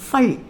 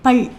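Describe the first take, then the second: First: The first consonant is a breathy ph. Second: The first consonant is a plain p. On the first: The speaker calls it right. "ஃபல் அப்படின்னு pronounce பண்ணணும்" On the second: The speaker calls it wrong. "பல் கிடையாது"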